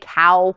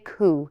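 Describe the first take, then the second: First: The vowel is an 'ow' sound, American style. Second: The vowel is an 'oo' sound, Scottish style. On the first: "we don't say cow like an American" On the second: "We say coo. Anything that would be an ow sound is an oo sound"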